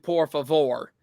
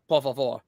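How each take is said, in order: First: It is said with an English accent. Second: It is said with a Spanish accent.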